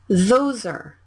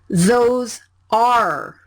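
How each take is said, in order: First: The two words run together as one blended sound. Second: The two words are pronounced clearly and separately. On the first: The speaker calls it right. "Consonant and vowel blended" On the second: The speaker calls it wrong. "Don't say it like"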